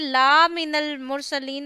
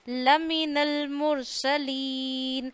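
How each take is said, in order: First: The first vowel is stretched long. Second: The first vowel is kept short. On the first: He is not one of those sent by God. The speaker calls it wrong. "ऐसे नहीं होना चाहिए" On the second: He is one of those sent by God. The speaker calls it right. "हमने खींचना नहीं है"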